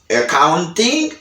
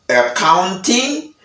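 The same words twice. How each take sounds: Both takes have the same delivery.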